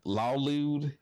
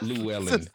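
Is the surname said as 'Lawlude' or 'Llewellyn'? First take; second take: Lawlude; Llewellyn. First: The surname is said as Lawlude. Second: The surname is said as Llewellyn. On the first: The speaker calls it wrong. "I probably mispronounced it" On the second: The speaker calls it right. "No, it's like Llewellyn"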